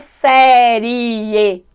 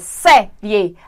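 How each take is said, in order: First: The final i and e fall in separate syllables. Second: The final i and e share one syllable. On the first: The speaker calls it wrong. "mas eu achei que fosse série. Achei que fosse uma, um hiato. ... Não é série" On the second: The speaker calls it right. "É série"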